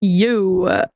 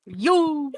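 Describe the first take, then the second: First: Put-on valley girl. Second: Put-on playful valley girl yo, lilting up. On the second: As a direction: toss off a bouncy valley girl yo. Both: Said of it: "Became a valley girl all of a sudden".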